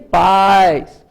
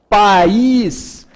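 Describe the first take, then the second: First: The stress falls on the A vowel. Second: The stress falls on the I vowel. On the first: "o A é a mais forte" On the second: "A tonicidade da palavra está no I"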